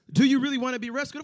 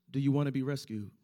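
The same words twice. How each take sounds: First: Higher, louder, faster repeat; pressing the question. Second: Said in the usual way. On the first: Shown as a demonstration. Preacher pressing the congregation again, higher and faster. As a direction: push the question harder.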